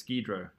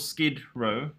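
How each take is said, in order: First: It is run together as one word. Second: It is said as two separate words. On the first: The speaker calls it wrong. "I just read it as Skidro" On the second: The speaker calls it right. "so they're called Skid Row"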